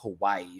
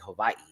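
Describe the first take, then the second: First: The middle consonant is a plain W sound. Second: The middle consonant sounds almost like a V. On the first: "She wouldn't say it like Hawaii" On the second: "almost like it sounds like a V, but it's not"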